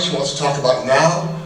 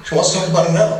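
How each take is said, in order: First: Said in the usual way. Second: Now pushed out urgently, a bit higher; now insistent and emphatic; stress on now. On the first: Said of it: "She wants to talk about it now 'cause". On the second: Shown as a demonstration. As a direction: lean hard on now. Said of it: "it's important right now".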